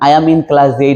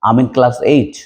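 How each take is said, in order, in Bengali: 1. প্রতিটি শব্দ আলাদাভাবে পূর্ণরূপে বলা হয়। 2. প্রথম শব্দগুলো মিশে একটি সংক্ষিপ্ত ধ্বনি হয়ে যায়। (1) "এভাবে বলবেন না" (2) "আপনি সুন্দর করে বলবেন আমিন"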